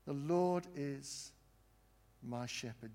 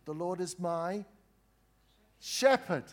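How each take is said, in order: First: Said in the usual way. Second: Rising proclamation. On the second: Shown as a demonstration. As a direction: build from "The Lord is my" to a high, loud "shepherd.". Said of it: "We're going really slowly".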